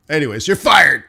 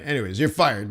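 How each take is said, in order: First: Louder, blunt "fired" dropped flatly; blunt firing. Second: Offhand firing. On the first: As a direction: fire him bluntly, louder. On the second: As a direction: toss it off casually. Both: Retold or imitated. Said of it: "That's how they say it".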